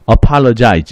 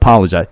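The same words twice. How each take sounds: First: The first vowel is said strongly and fully. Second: The first vowel is weak, nearly dropped. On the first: "A 발음을 좀 강하게, 모음을 강하게 발음하죠" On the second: "어가 떨어지고 팔이 팔 이 부분이 강세가 가기 때문에"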